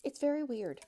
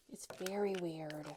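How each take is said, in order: First: Said in the usual way. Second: Whispered repeat of "very weird". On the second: Real, not acted. Aside to viewers about the car, whispered. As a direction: say it again under your breath.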